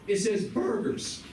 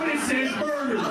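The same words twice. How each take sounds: First: The voice cracks in the middle of the word. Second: The voice stays steady through the word. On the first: "with the crack and the voice in the middle" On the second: "Maybe not with the crack"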